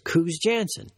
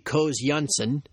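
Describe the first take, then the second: First: The name has an English pronunciation. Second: The name has a Dutch pronunciation. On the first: "he wants everybody to pronounce it" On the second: "in Dutch it should be"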